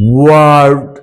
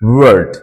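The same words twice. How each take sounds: First: The vowel is drawn out long. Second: The vowel is kept short. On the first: The speaker calls it wrong. "এরকম না" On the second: The speaker calls it right. "একেবারে সংক্ষিপ্ত"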